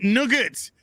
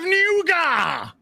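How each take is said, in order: First: It sounds like English 'nugget', with a hard ending. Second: It is said French-style, like 'noo-gah'. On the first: "In Britain, we traditionally pronounce it Nugget" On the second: "its correct French pronunciation of nougat"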